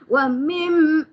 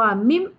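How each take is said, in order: First: The m carries a short nasal hum. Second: The m is said with no nasal hum. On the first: "dia ada sedikit kata-kata henjutan, itu sudah nampak dengung" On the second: "Confirm tak ada dengung"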